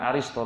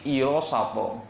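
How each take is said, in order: First: The name begins with an 'ar' sound. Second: The name begins with an 'ir' sound. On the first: The speaker calls it wrong. "Bukan Aristo" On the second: The speaker calls it right. "tapi Irosato"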